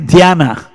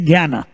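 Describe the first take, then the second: First: It is said the way Marathi speakers say it. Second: It is said the way Hindi speakers say it. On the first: "In Marathi, they say Dhyana" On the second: "In Hindi, we say Jnana"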